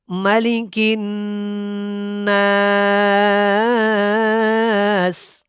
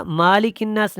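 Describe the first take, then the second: First: مالک الناس slowly chanted with nasal ghunna on نون; correct tajweed. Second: مالک الناس said quickly without nasal ghunna; wrong reading. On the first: Teacher showing students the correct reading of مالک الناس. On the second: Teacher showing students the wrong reading of مالک الناس. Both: Shown as a demonstration. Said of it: "مالک الناس نہیں ہے".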